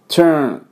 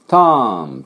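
First: The vowel is said with a nearly closed mouth. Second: The vowel is said with a wide-open mouth. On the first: The speaker calls it right. "ほとんどチューンみたいな、チュワースの音なんですね。" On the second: The speaker calls it wrong. "口を開けてしまいます。turn と、turn でありません。"

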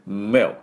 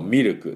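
First: The consonants are said without added vowels. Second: Extra vowels are added after each consonant. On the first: The speaker calls it right. "しっかりこの、どうしようかなって音を振動させて" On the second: The speaker calls it wrong. "日本人が発音すると、ミルクとかになっちゃいますが"

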